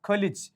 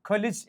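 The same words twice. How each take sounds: No difference in how they are said.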